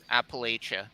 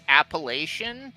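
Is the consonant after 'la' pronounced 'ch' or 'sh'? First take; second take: ch; sh. First: The consonant after 'la' is a 'ch' sound. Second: The consonant after 'la' is a 'sh' sound. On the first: The speaker calls it right. "it's not the the sh sound, it's more of a ch" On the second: The speaker calls it wrong. "I thought it was like Appalachian"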